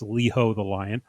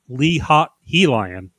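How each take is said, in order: First: The middle is split as 'ho the'. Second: The middle is split as 'hot he'. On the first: This is how the name's owner says it. "he was nice enough to tell us how to properly pronounce it" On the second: This is a cooler-sounding alternative reading. "I think I prefer"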